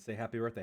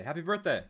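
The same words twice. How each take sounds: First: Said in the usual way. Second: Bright, high birthday greeting; cheerful birthday shout. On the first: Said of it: "Someone said". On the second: Shown as a demonstration. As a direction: call it out happily, up high.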